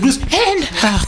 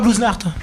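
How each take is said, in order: First: The words are clearly separated and articulated. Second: The words are run together into one sound. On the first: The speaker calls it right. "Elle a bien dit and Art" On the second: The speaker calls it wrong. "c'est pas Blues Nart"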